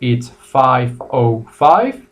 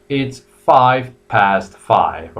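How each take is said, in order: First: Slow, careful five oh five; American time, slow. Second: Very slow, careful five past five; British time, slow. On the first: Teacher modelling American time for students, slow and clear. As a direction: spell out five oh five slowly. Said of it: "two ways to say it". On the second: Teacher modelling British time for students, very slow and clear. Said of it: "And you have the British". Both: Shown as a demonstration.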